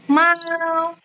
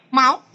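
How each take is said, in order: First: "Mau" held high and level; first tone. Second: "Mau" short and rising; second tone. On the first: Teacher drilling Dina on tone one, long level "Mau". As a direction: stretch "Mau" on one steady note. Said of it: "coba yang nada satu". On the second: Teacher giving Dina a word to copy, rising "Mau". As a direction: lift "Mau" like a question. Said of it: "nada naik ke atas". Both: Shown as a demonstration.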